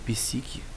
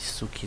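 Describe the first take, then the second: First: The first vowel sounds like 'i'. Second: The first vowel sounds like 'u'. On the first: "Normalmente você vai ouvir como psique" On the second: "Eu fui ensinado que tem som de U"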